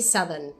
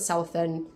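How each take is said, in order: First: It is said in a Southern US accent. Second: It is said in a Kenyan accent. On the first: "They say Southern. That's how they pronounce it" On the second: "not Southern, like I would say it"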